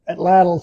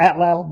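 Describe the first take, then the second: First: The stress is on the second syllable. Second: The stress is on the first syllable. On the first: The speaker calls it right. "the correct pronunciation is the emphasis on the second syllable" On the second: The speaker calls it wrong. "I always call it atlatl"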